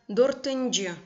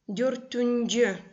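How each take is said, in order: First: The vowel before -nji is an unrounded y. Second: The vowel before -nji is a rounded u. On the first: "Но многие говорят дортынджи" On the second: "И окончание юнджи"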